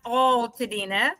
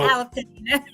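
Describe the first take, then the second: First: The first syllable sounds like "all". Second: The first syllable sounds like "al". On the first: The speaker calls it wrong. "We are not Altadena. ... we're not A L L" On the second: The speaker calls it right. "we're A L Alta"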